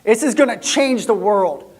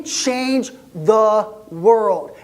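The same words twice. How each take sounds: First: Said in the usual way. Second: Change the world drawn out very slowly; slow, awed emphasis. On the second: Acted. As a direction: stretch each word, full of wonder. Repeats the line for emphasis.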